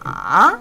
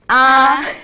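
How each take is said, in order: First: The pitch dips low and then rises. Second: The pitch stays high and level. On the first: "삼성은 날개 펴고 아, ... 내려갔다가 올라오고요" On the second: "일성은 높이 올려 아"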